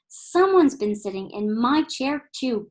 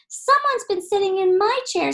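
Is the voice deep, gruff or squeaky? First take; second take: gruff; squeaky. First: It is said in Mama Bear's low growl. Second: It is said in Baby Bear's high squeak.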